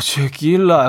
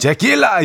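First: It is said with a sigh mixed in. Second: It is said plainly, without a sigh.

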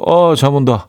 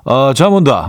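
First: It is said in a standard Seoul accent. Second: It is said in a Gyeongsang dialect tone.

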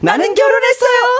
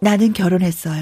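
First: It is said at a higher pitch. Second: It is said at a lower pitch.

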